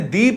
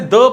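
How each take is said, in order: First: The vowel is long and full, like thee. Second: The vowel is short and weak, like thuh. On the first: The next word starts with a vowel or is emphasized. "Vowel starting noun के पहले द का use हो तो इसे दी पढ़ा जाता है" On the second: The next word starts with a consonant. "Consonant starting noun से पहले अगर द का यूज हो तो उसे द पढ़ा जाता है"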